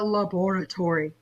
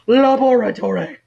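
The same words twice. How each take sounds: First: The word is said in a plain, ordinary way. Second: The word is said in a dramatic, theatrical way.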